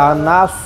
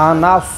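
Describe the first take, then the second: No difference in how they are said.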